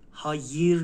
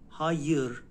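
First: The second vowel is a front unrounded vowel. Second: The second vowel is a back unrounded vowel. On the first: The speaker calls it wrong. "هایر نیست، ایه آیه با نقطه نیست" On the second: The speaker calls it right. "ها یر هایر"

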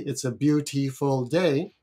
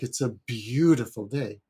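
First: The first syllable of beautiful is short and plain. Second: The first syllable of beautiful is lengthened and weighted. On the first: The speaker calls it wrong. "I'm not expressing the word" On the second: The speaker calls it right. "I've lengthened certain syllables"

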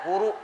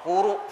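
No difference in how they are said.

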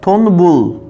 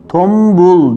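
First: An n sound is said before the b. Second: An m sound is said before the b. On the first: The speaker calls it wrong. "Tonbul değil" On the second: The speaker calls it right. "tombul diyoruz"

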